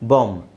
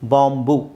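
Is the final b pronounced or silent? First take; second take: silent; pronounced. First: The word ends on the m sound. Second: The b is sounded with a vowel after it. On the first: The speaker calls it right. "Actually ಅದು ಬಾಂಬ್. ನೀವು ಬಿ silent ಮಾಡಬೇಕು" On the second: The speaker calls it wrong. "ನಾವು ಹೂ ಸೇರಿಸಿ ಹೇಳ್ತೀವಿ"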